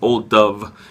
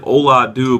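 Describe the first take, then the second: First: The name ends in a 'v' sound. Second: The name ends in an 'oo' sound. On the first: The speaker calls it right. "apparently it's" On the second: The speaker calls it wrong. "It looks like"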